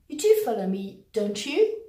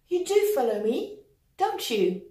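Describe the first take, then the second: First: The voice rises at the end of the tag. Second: The voice falls at the end of the tag. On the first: The speaker is unsure the listener follows. "I'm unsure you've actually understood me" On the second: The speaker is sure the listener follows. "It means I'm pretty sure you are following what I'm saying"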